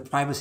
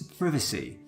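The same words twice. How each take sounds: First: It is said with an American pronunciation. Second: It is said with a British pronunciation. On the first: The speaker calls it wrong. "it's not pri- uh, privacy" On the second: The speaker calls it right. "It's privacy"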